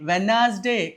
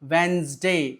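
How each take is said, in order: First: The word is said with three syllables. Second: The word is said with two syllables. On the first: The speaker calls it wrong. "వెనాస్డే కాదు" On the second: The speaker calls it right. "డి silent letter. కావున దాన్ని వెన్స్డే అనాలి"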